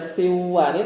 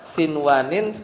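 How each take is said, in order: First: The n is merged into the following w. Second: The n is pronounced clearly before the w. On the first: The speaker calls it wrong. "Kalau dibaca siwanin malah salah" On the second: The speaker calls it right. "tidak dibaca guna"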